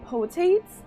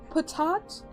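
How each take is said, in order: First: The name is said like potate, with a long o. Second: The name is said as patat, with short vowels. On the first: The speaker calls it wrong. "I've been saying potates" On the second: The speaker calls it right. "am I saying that properly?"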